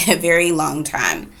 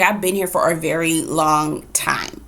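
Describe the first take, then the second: First: A very long time said through a laugh; laughing repeat. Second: Said in the usual way. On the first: Shown as a demonstration. Mother repeating to Dana how long she was stuck, with a laugh.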